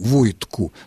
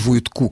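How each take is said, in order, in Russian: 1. Ударение на первом слоге. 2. Ударение на последнем слоге. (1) "ударение на окончание тоже не падает" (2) "это категорически исключено"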